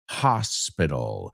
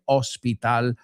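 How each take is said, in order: First: The first syllable sounds like 'ha'. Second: The first syllable does not sound like 'ha'. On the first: The speaker calls it right. "Ha, like ha" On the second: The speaker calls it wrong. "I've heard many people say hospital"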